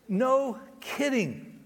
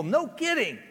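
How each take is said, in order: First: No kidding said slowly and dryly; slow, drawn out. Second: Emphatic. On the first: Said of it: "repeated answer, slowed". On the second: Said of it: "repeated answer". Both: Shown as a demonstration.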